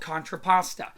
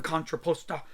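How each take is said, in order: First: Said in the usual way. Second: Contrapposta said the Italian way, lightly; Italian accent. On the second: Shown as a demonstration. Art teacher offering the Italian way to say it, light Italian accent. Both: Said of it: "if you want to say it with an Italian accent".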